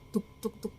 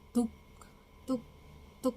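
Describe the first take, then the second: First: The beats are imitated quickly, close together. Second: The beats are imitated slowly, spaced apart. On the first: It is the fetal heartbeat. "kenceng banget" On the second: It is the pulse or intestine sound. "nggak secepat itu"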